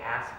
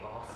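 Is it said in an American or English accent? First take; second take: American; English. First: It is said in an American accent. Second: It is said in an English accent.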